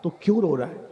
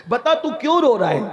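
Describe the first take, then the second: First: Said in the usual way. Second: Higher, pressing repeat of the question; insistent question. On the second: Retold or imitated. The master asks the weeping youth why he cries, insistent. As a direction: press him for an answer, voice raised in pitch.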